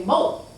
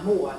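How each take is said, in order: First: "Moe" for Moore, no r at the end; southern Moe. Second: Said in the usual way. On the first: Shown as a demonstration. Showing how family says Moore down south, r dropped. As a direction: drop the r in "Moe", a plain long o. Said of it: "we might say Moe". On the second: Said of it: "instead of Moore, we might say Moe".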